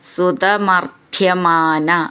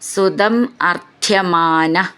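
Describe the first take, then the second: First: The words run together as one joined word. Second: The words are said apart as separate words.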